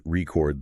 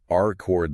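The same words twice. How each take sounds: First: "record" stressed on the second syllable, as a verb; slow demo, weight on the end of "record". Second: "R-cord" stressed on the first syllable, as a noun; slow demo, weight on the start of "R-cord". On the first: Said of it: "versus record the verb". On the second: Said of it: "It can even change the meaning". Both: Shown as a demonstration.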